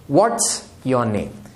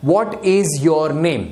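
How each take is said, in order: First: "What's" run together into one syllable, said slowly; contracted what's. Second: "What is" said as two separate full words, slowly; full form what is. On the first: Teacher modelling the short form for students, slow and contracted. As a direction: fold "What is" into a single "What's", slowly and clearly. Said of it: "इसे ऐसे पढ़ सकते हैं". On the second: Teacher showing students the uncontracted question, slowly and fully. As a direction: spell out "What is your name" slowly, with "is" clearly sounded. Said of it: "ये what is को हम short form भी कर सकते हैं".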